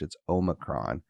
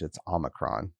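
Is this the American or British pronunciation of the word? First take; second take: British; American. First: It is said with a British English pronunciation. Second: It is said with an American English pronunciation. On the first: "If you pronounce it the British English" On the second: "And in American English"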